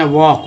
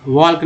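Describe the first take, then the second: First: वॉक with no L sound; silent L. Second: वॉक misread as walk with audible L; wrong pronunciation. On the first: Teacher showing how it is read, वॉक without L. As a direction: leave the L out of वॉक. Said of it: "एल के यहाँ पर क्या बोलते हैं". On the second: Teacher warning how not to read it, वॉक with L pronounced. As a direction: sound the L inside वॉक. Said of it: "नहीं पढ़ेंगे". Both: Shown as a demonstration.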